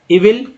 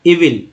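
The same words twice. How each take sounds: First: evil higher, lifting up at the end; rising tune. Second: evil closed with a falling pitch; falling tune. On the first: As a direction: say evil with a questioning rise. Word repeated with contrasting tune. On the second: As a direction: say evil as a finished statement, pitch down. Word said twice with contrasting tune. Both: Shown as a demonstration.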